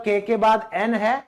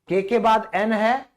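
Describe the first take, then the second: No difference in how they are said.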